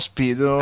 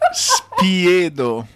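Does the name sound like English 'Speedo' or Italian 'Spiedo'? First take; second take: English Speedo; Italian Spiedo. First: It is said like the English word 'Speedo'. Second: It is said with the Italian vowels, 'Spiedo'. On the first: The speaker calls it wrong. "not Speedo" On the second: The speaker calls it right. "It's Spiedo"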